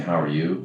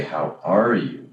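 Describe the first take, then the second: First: Said in the usual way. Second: Slow, genuinely curious "How are you?"; sincere, interested how are you. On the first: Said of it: "instead of saying". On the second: Shown as a demonstration. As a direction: stretch out "How are you?" like you really want to know. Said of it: "that changes it".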